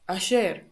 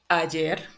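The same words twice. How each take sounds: First: The Y is said with an sh sound. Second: The Y is said with a y-like sound. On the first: "they pronounce sh" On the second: "it's at the beginning or in the middle, is J"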